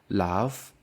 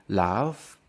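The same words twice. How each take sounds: No difference in how they are said.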